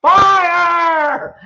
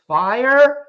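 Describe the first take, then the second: First: Full-out, high-pitched scream of alarm; demonstrated scream. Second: Imitating a tentative, questioning scream; timid mock scream. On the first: Shown as a demonstration. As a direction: scream it long, as if warning of flames. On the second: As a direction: raise it loud and high, but unsure. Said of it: "How would you scream fire?".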